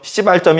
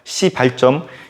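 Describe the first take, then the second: First: The first consonant is tense, like a swear word. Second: The first consonant is plain and soft. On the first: The speaker calls it wrong. "아니에요" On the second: The speaker calls it right. "발음 잘 들으세요"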